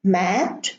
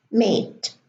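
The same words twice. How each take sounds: First: Mat with a short flat a; short a demo. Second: Mate with a long ay sound; long a demo. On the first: Teacher contrasting mat and mate, short vowel. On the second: Teacher contrasting mat and mate, long vowel. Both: Shown as a demonstration. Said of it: "mad becomes mate".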